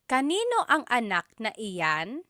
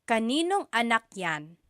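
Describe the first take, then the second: First: Every word is said in full, unreduced. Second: The words are run together and shortened.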